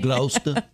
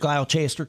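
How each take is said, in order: First: The name is said in a British pronunciation. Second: The name is said in an American pronunciation. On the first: A local correcting the visitor. The speaker calls it right. "You mean Gloucester?" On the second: A visitor who does not know the local name. The speaker calls it wrong. "which must make Americans sound very funny when we go over there"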